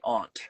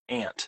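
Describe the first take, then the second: First: The vowel does not rhyme with 'can't'. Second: The vowel rhymes with the vowel in 'can't'. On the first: This is the speaker's own everyday pronunciation. "but I say aunt" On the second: This is how the book's rhyme expects it. "like it rhymes the word can't"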